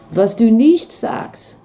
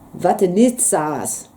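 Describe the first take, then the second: First: It is said in standard German, with an s sound. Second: It is said in local dialect, with a t sound. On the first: "Proper German" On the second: "in Platt"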